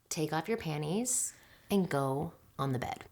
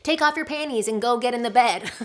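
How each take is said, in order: First: The voice is low, deep and steady. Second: The voice is higher-pitched and less steady. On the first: The speaker calls it right. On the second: The speaker calls it wrong.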